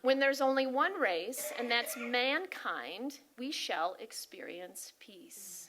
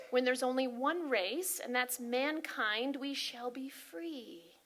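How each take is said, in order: First: Solemn altered quote. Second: Slow, weighty recitation that slows further and softens; solemn quote reading. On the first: Her own version of the quote, slow and hushed at the end. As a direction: let the last line fall to a near whisper. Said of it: "I changed it up a little bit". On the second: Sharing the [name] quote with the congregation, solemn and slow. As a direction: read it like a solemn proclamation. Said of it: "This is a quote by [name]". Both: Acted.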